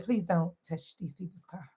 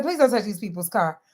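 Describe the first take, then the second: First: Quiet warning. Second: Said in the usual way. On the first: Retold or imitated. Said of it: "And I said". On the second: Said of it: "I said".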